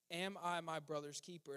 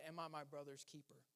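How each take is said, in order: First: Said in the usual way. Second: Softer, drawn-back asking of the question; quiet, searching question. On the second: Shown as a demonstration. Pastor quietly poses Cain's question to the church. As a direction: let it sink in under your breath. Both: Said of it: "I'm gonna pose that question to you".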